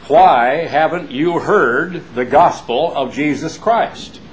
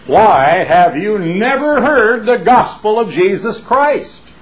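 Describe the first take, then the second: First: Slow, emphatic preacher challenge; a touch of his father's preaching voice; imitating his father. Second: Much higher, louder, slow booming preacher; full-throated impression of the old evangelist father; imitating his father. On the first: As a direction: quote father's famous line, drawn out. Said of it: "My father ... has said thousands of times". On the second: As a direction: shake the jowls and boom it like his father. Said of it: "to imitate his father as perfectly as he knows how".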